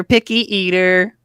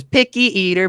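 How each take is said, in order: First: Mocking taunt, rising. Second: Teasing singsong jab; mocking taunt. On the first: Harmon rubbing it in to Haskin, rising teasing taunt. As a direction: repeat the jab with a teasing lift. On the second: Harmon teasing Haskin, mocking singsong taunt. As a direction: needle him like a smug brother. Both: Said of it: "points at him and laughs and says".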